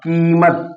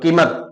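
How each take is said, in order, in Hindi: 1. पहला स्वर लंबा बोला जाता है। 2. पहला स्वर छोटा बोला जाता है। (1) "कीमत दो मात्रा का काल लग रहा है" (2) "कीमत सार्थक शब्द नहीं लग रहा है"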